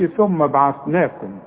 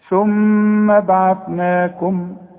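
First: The doubled m is short with no nasal hum. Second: The doubled m is held with a nasal hum. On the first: The speaker calls it wrong. "ما تقولش ثم بعثناكم" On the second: The speaker calls it right. "المين غنها مدام عليها الشدة"

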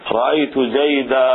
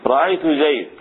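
First: The last word ends in a long 'a'. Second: The last word ends with no vowel. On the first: This is the pause form most Arabs use. "فيوقف عليه بالألف، رأيت زيدا هكذا" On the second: This is the pause form of the Rabi'a tribe. "وربيعة تقف عليه بالسكون أيضا، هكذا يقولون"

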